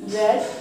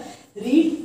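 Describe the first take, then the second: First: The vowel is short, like in 'bed'. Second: The vowel is long, like in 'need'. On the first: The action happened in the past. "तो इसे रेड पढ़ा जाएगा" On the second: The action happens in the present. "बस बोलने का तरीका होता है रीड"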